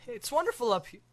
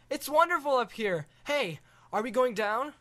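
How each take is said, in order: First: Put-on higher, delighted boy voice; thrilled kid, high. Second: Put-on much higher, amazed boy voice; wide-eyed kid, high; awed boy. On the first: Boy gushing to the dragon, delighted. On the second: Boy marvelling at the view from the dragon.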